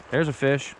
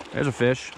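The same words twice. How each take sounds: The two takes are said the same way.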